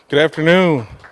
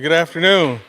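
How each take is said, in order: First: It is said in a plain, flat way. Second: It is said in a livelier, more energetic way.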